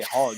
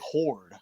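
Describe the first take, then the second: First: The vowel is an open 'ar' sound. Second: The vowel is a rounded 'or' sound.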